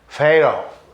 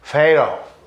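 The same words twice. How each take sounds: First: The word is said with a d-like English t. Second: The same.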